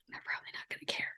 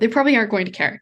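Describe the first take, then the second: First: It is whispered. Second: It is spoken in a normal voice.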